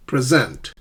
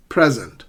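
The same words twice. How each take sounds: First: "Present" with SENT stressed; stress on second syllable. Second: "Present" with PRE stressed; stress on first syllable. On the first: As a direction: verb "Present", light first syllable, strong second. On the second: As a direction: noun "Present", strong first syllable, falling after. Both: Shown as a demonstration. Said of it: "stress the correct syllable".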